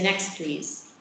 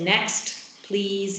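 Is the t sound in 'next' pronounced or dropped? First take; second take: dropped; pronounced. First: The t at the end of next is dropped. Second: The t at the end of next is pronounced. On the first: "You don't produce a t" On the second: "instead of saying next, please"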